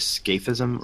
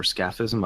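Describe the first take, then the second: First: Scaphism with a long A, like "SKAY-fizm"; alternative pronunciation. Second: Scaphism with a short A, like "SKAFF-izm"; alternative pronunciation. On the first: Co-host unsure how the technical term goes, first pronunciation, "SKAY-fizm". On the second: Co-host unsure how the technical term goes, second pronunciation, "SKAFF-izm". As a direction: say scaphism as "SKAFF-izm", first vowel as in "cat". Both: Shown as a demonstration. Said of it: "I don't know how it's pronounced".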